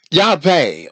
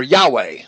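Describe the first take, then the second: First: Yahweh with a V, "Yah-vay"; V pronunciation. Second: Yahweh with a W, "Yah-way"; W pronunciation. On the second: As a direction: keep a rounded English W in Yahweh. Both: Shown as a demonstration. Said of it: "or Yahweh".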